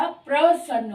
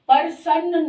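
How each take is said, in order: First: प्रसन्न with a tight प्र cluster; correct pronunciation. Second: प्रसन्न said with a vowel split after प, like परसन्न; wrong pronunciation. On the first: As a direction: join प and र in प्रसन्न. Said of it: "प्रसन्न होता है". (प्रसन्न का सही उच्चारण, प्र जोड़कर) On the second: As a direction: break प्रसन्न as पर-सन्न. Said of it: "प्रसन्न नहीं होता". (प्रसन्न का गलत उच्चारण, परसन्न जैसा) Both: Shown as a demonstration.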